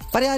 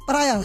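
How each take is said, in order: First: The word is squeezed into two syllables. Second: The word is said with three full syllables. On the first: The speaker calls it wrong. "पर्या नहीं" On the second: The speaker calls it right.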